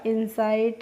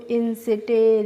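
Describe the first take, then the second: First: The last vowel is an 'eye' sound. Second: The last vowel is a short i sound. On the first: The speaker calls it right. "आपने इनको सही से pronounce किया" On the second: The speaker calls it wrong. "इस तरीके से नहीं पढ़ा"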